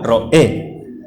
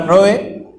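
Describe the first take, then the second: First: The stress is on the last syllable. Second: The stress is on the first syllable. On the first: The speaker calls it right. "tiene el acento en la E" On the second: The speaker calls it wrong. "nunca ha sido la palabra Roe"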